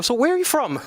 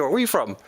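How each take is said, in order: First: Curious cashier. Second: Said in the usual way. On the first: Retold or imitated. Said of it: "the guy taking your order". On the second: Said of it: "Before I give you".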